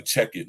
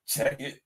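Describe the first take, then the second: First: Said in the usual way. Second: Mock whisper. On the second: Shown as a demonstration. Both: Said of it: "Don't that sound like some homo shit?".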